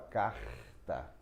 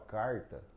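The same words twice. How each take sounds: First: The R is said another region's way. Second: The R is said the South Minas way. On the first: This is how people in other regions say it. "aqui em outras regiões a gente fala carta" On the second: This is how people from southern Minas Gerais say it. "o povo do sul de Minas fala carta"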